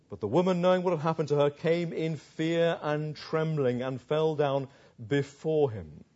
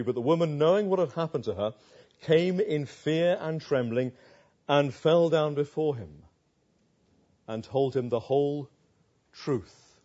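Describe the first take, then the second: First: Lingering on came in fear and trembling; slow emphatic reread. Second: Said in the usual way. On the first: Shown as a demonstration. Preacher rereading the verse slowly to dwell on it. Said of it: "rereads verse slowly". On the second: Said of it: "reads verse thirty-three".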